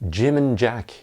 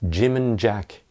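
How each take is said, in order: No difference in how they are said.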